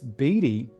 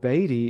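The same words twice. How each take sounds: First: The name is pronounced the way people in England say it. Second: The name is pronounced the way the speaker's side says it. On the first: This is how most people in England say it. "is how most people pronounce it in England" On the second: This is how the name's own bearers say it. "is how we pronounce"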